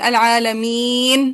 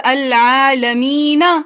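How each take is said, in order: First: The word ends on a consonant, vowel dropped. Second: The word ends on a final vowel sound. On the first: The reader stops on this word. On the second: The reading continues without stopping.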